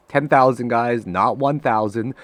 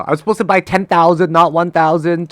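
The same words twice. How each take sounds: First: Laughing it off. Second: Mad. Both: Real, not acted. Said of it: "I'm mad now".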